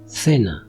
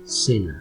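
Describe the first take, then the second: First: The first consonant sounds like English th. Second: The first consonant sounds like English s. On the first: "twice with a Spanish accent" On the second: "twice with a Latin American accent"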